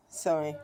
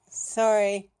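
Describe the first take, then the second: First: Said in the usual way. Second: Higher, louder, drawn-out sorry; exasperated, raised-voice sorry; loud pointed apology. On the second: Real, not acted. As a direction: throw the apology out loudly. Repeats apology louder, annoyed at scolding.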